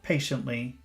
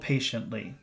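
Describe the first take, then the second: No difference in how they are said.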